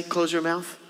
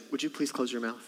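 First: Curt parent order; mildly stern parent; blunt command. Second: Sweetly polite parent, quieter; lightly played polite parent; mock polite request. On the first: Retold or imitated. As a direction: snap it at a child. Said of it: "tempted to say". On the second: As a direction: ask nicely through a smile. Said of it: "but you say".

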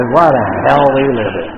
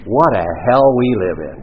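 First: Higher and louder sympathetic repeat; hammed-up sympathy, higher; stronger mock sympathy. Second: Loud, sing-song commiserating line; hammed-up sympathy; mock sympathy. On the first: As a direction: push the sympathy further, higher. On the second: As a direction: commiserate with a big show. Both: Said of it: "But I understand".

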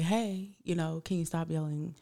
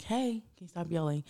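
First: Asking softly to stop the yelling; a gentle, quiet request, holding back; soft plea. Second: Same soft request, a bit firmer; soft but patient ask to stop yelling; quiet repeat. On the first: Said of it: "I was like". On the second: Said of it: "And I'm like". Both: Retold or imitated.

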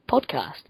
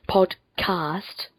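First: Said in the usual way. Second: PODCAST very slowly, split into "pod" and "cast"; careful pronunciation. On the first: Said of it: "There we go, I've got it now". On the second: Real, not acted. Podcaster getting "podcast" right after stumbling, slow and careful. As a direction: draw out "podcast" syllable by syllable. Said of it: "I've got it now".

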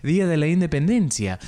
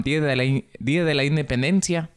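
First: Higher, lilting Argentine Spanish; Argentine-leaning Spanish accent. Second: Attempted Mexican Spanish accent; more Mexican accent. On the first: Host replays his slip for listeners, Argentine-leaning accent. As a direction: let the Spanish drift south toward Argentine. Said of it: "un poco más argentino". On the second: Host corrects his accent for listeners, more Mexican Spanish. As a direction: pull the Spanish back toward Mexican. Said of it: "Un poco más mexicano". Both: Shown as a demonstration.

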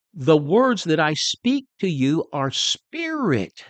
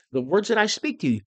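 First: Words drawn out slowly, leaning on "words"; slow solemn reading. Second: Quicker, pointing hard at "that"; stress on that. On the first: Preacher reading scripture slowly to the congregation. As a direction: read it slow and weighty. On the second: Preacher re-quoting the verse fast, stressing "that". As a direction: press "that" to drive it home. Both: Shown as a demonstration.

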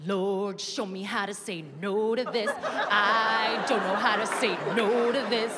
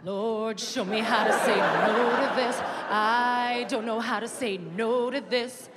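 First: A politician begging God for willpower he doesn't want; tempted Hamilton. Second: The actor's Hamilton begging God for help resisting; tempted prayer, louder. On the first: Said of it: "he's like". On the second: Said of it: "what are you gonna say?". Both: Retold or imitated.

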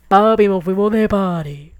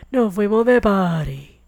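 First: Louder, gleeful party call; mock party cheer. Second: Chanted, drawn-out party singsong; slower gleeful party chant. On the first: Telling her dad they're off partying, gleefully. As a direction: celebrate like you just got free. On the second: Retold or imitated. Chanted, repeating the party line to listeners, slowly and gleefully. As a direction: savour each word like a chant.

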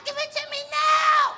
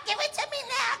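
First: Very high, louder bratty shout; high child screaming demand; screaming kid. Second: Put-on very high bratty child whine, softer; pleading brat whine; high whiny child, not yet yelling; whining kid. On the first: Retold or imitated. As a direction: tantrum yell at mommy. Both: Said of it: "kicking and screaming at his mother".

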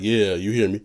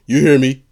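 First: Said in the usual way. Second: Loud, projected demo, pitched slightly up; big-man lungs. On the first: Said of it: "big man, grown man". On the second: Shown as a demonstration. Showing off his grown man lungs, loudly projected. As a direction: push it out from the chest. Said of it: "big man, grown man, um, lungs".

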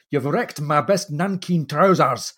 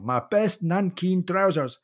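First: Put-on a light Scottish accent, indignant and slow; lightly voiced indignant Scot, slowed down; understated Scottish complaint; mild Scottish accent. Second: Put-on higher, slow, broad Scottish accent; hammed-up Scottish outrage over ruined trousers. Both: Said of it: "this Scottish accent just enough that you can really hear this indignant, outburst".

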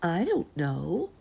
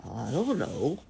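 First: Slow, higher mother bear voice; sleepy mother bear. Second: Drowsy father bear's rumble; sleepy father bear. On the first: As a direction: answer slowly as a drowsy mama bear. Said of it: "said mother and tumbled back to sleep". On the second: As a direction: answer like a papa bear half asleep. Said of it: "said father and rumbled back to sleep". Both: A narrator's reading.

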